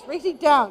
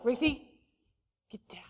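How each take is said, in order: First: Firm, curt imitated dog command; means-it command. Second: Low, soft, ineffectual dog command; half-hearted command. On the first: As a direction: order the dog down like you mean it. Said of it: "He knows he means it". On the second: Retold or imitated. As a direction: tell the dog off without meaning it. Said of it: "You don't mean it".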